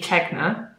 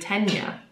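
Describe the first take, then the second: First: The middle has a hard g sound. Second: The middle has a soft ny sound. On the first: The speaker calls it wrong. "I've been saying it wrong this whole time. I've been calling it the Tegna" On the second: The speaker calls it right. "you're supposed to pronounce it the Tenya"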